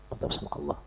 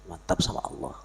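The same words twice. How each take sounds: First: "Mantap sama Allah" breathed out unvoiced, soft; soft whispered "Mantap sama Allah"; whispered echo. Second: Said in the usual way. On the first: Shown as a demonstration. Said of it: "repeats phrase softly". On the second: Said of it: "repeats phrase".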